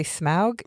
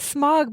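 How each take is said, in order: First: "Smaug" with an "ow" glide; said as "smowg". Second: "Smaug" with one open vowel, like smog. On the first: Quoting the DVD extras, "Smaug" said as smowg. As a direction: say "Smaug" with the vowel of "now". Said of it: "they say Smaug". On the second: Admitting how they say it, "Smaug" as smog. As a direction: say "Smaug" to rhyme with dog. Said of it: "I think I say it". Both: Shown as a demonstration.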